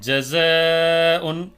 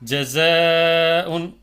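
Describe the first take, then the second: First: The long vowel is light and thin. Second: The same.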